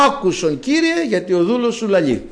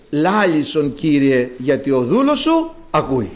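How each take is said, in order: First: Mock demand. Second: Said in the usual way. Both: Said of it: "Εμείς τρέχουμε, φωνάζουμε".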